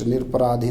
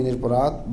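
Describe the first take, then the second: First: निरपराधी with the long ई ending, marked as the wrong form. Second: निरपराध with no ई ending, said as the correct form. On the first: (गलत रूप: निरपराधी, अंत में ई) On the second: (सही रूप: निरपराध, बिना ई के) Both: Shown as a demonstration. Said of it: "निरपराधी नहीं".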